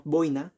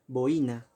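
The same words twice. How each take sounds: First: "boina" with oi run together in one syllable; boina as diphthong. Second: "boina" split as bo-I-na, stress on the i; boina as hiatus. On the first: Teacher showing students the diphthong version, "boina" as BOI-na. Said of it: "sería un diptongo". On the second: Teacher showing the correct hiatus, "boina" as bo-Í-na. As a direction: say "boina" in three syllables, bo-Í-na. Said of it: "la intensidad está en la vocal cerrada". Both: Shown as a demonstration.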